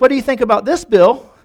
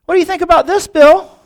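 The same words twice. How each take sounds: First: Higher, louder on the name; acted-out challenge; mock taunt. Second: High, loud mock fury; hammed-up vituperative biker; incensed taunt. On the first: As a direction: taunt him, building to the name. Biker taunts Bill in story. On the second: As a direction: shout the challenge, hitting the name hardest. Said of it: "he was incensed".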